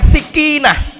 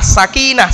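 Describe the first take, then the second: First: The first vowel is a close 'i'. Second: The first vowel is an open 'a'. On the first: The speaker calls it wrong. "Orang bacanya dikasrohkan sikinah, bukan sakinah" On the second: The speaker calls it right. "Bacanya sa, pakai fathah"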